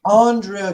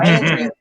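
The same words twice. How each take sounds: First: The name is pronounced in a refined, upscale way. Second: The name is pronounced in a casual, folksy way. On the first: The person is wealthy and refined. "Andrea is like the more rich person" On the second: The person is ordinary and rowdy. "Opposed to, hey y'all"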